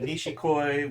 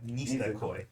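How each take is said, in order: First: The second consonant is a 'sh' sound. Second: The second consonant is a plain 's' sound. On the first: The speaker calls it wrong. "Is that how you pronounce it?" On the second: The speaker calls it right. "There's no H"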